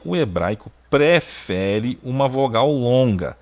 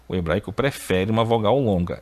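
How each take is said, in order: First: "o hebraico prefere uma vogal longa" stated slowly, each word weighted; slow emphatic rule. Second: Said in the usual way. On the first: Shown as a demonstration. Teacher stresses the grammar rule slowly for students.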